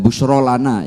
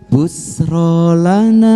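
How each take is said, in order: First: The middle consonant is an sh sound. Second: The middle consonant is a plain s sound. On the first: The speaker calls it right. "harusnya e, menggunakan shin" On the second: The speaker calls it wrong. "busro ya pakainya sin"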